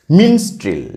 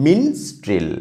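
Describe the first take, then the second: First: Said in the usual way. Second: মিনস্ট্রেল broken into মিনস and ট্রেল; two syllables. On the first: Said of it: "উচ্চারণটা করো". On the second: Shown as a demonstration. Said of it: "এটা দুটো উচ্চারণ হচ্ছে".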